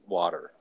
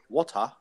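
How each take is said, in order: First: The speaker's own accent, with a soft T. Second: An Australian accent, with a sharp T.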